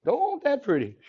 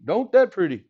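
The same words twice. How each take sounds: First: Hammed-up Cajun, pitched much higher; Cajun saying. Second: A light Cajun lilt on "Don't that pretty"; just a hint of Cajun, almost his own voice; Cajun saying. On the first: Teacher hamming up a Cajun phrase for the class, higher. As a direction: lean into the Cajun, big and high. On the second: Teacher admiring his graph, lightly Cajun. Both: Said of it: "That's how they say it in Cajun land".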